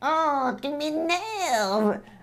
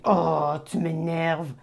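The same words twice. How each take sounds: First: It is said in a silly cartoon voice. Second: It is said in the speaker's normal voice. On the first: The annoyance is softened and made playful. "use this cartoon voice like" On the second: The annoyance is expressed directly. "instead of saying"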